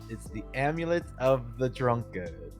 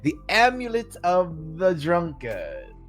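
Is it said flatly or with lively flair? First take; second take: flatly; lively flair. First: It is said flatly, without much flair. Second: It is said with lively flair as Albrecht.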